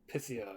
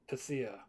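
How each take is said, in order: The two takes are said the same way.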